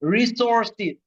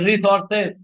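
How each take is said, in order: First: The final syllable is pronounced like 'sis'. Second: The final syllable is pronounced like 'ses'. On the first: The speaker calls it right. "সেস উচ্চারণটা হবে সিস" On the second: The speaker calls it wrong. "Not রিসোর্সেস"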